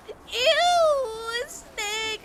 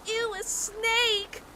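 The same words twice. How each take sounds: First: Very high, loud crying shriek of disgust. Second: High, slow squeal of disgust; grossed-out kids. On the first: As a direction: wail it like a scared girl in tears. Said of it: "she's, like, crying". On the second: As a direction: stretch it out like the group shrieking at a snake. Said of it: "everybody's like". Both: Retold or imitated.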